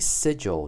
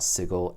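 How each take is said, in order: First: The G is soft, like a J. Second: The G is hard, as in go. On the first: The speaker calls it wrong. "you pronounced the name of our fair city Sigil" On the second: The speaker calls it right. "it is pronounced Sigil with a hard G"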